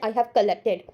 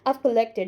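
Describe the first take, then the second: First: Both words of the verb are said in full. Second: The verb is contracted to one syllable. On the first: The speaker calls it wrong. "I didn't say" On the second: The speaker calls it right.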